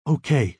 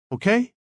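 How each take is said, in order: First: "Okay" falling at the end; accepting. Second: "Okay" rising high at the end; questioning. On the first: Girlfriend agrees to Michael's plan, "Okay" with a falling tune. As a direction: let "Okay" drop as a simple answer. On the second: Michael checks that his girlfriend agrees, "Okay" with a high rise. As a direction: lift "Okay" sharply into a question. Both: A narrator's reading.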